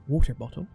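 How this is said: It is said in the speaker's everyday accent. "like I normally do"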